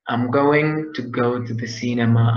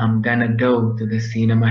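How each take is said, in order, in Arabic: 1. يُقال 'going to' كاملة. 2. تُختصر 'going to' إلى 'gonna'.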